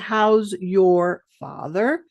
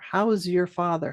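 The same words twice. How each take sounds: First: It is said slowly with a full your. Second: It is said quickly with a reduced your. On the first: "If you're speaking slow" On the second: "When we say quickly"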